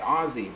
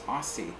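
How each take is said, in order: First: The middle consonant is not an s sound. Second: The middle consonant is an s sound. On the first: This is how most of the world says it. "if you're from anywhere in the world and you say" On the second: This is how people in the United States say it. "in the United States, we say Aussie with S's"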